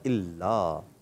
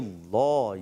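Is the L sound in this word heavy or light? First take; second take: light; heavy. First: The L is pronounced light and thin. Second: The L is pronounced heavy and full. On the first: "باریک" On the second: "پور"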